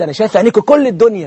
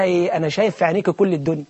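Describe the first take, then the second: First: Said in the usual way. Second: Softer, dreamy lover's line; mock lovestruck whisper-soft. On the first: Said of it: "الواد بيقول للبنت". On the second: Young man softly tells the girl he sees the world. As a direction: sigh it out like a smitten suitor. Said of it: "فبيبص في عينيها كده ومسبل".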